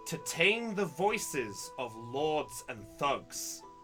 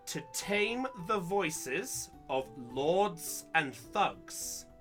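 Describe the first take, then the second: First: It is read at a normal pace. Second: It is read slowly.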